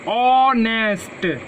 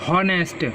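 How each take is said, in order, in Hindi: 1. शब्द सीधे स्वर की ध्वनि से शुरू होता है। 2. शब्द की शुरुआत में साफ़ h की ध्वनि सुनाई देती है। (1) "ऑनेस्ट ना कि हॉनेस्ट। ... इसमें एच साइलेंट रहता" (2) "ना कि हॉनेस्ट"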